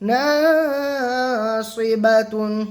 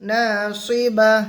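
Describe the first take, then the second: First: The word ends with a full 'tun' ending. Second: The word ends with a stopped 'h' sound. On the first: The reading continues without a stop. "তাদু পেশতুন" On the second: The reader stops at the end of the verse. "গোলতা হায় সাকেনা হয়ে যাবে"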